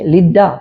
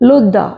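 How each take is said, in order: First: The first vowel is an ee sound. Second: The first vowel is an oo sound. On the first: This is the English reading of the spelling. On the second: This keeps the original Hebrew vowel.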